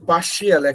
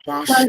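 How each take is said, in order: First: The ending is said as two syllables, shee-al. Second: The ending is said as one syllable, shal. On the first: The speaker calls it wrong. "আগে বলতেন" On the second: The speaker calls it right. "এখন কি বলবেন?"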